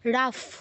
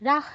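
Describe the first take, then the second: First: The syllable ends with an f sound. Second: The syllable ends with an h sound. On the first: The speaker calls it right. "বিসর্গর জায়গায় ফ" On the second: The speaker calls it wrong. "রাহ নয়"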